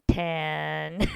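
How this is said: The vowel is flat, sounding like tan. "Tell everyone what tan is"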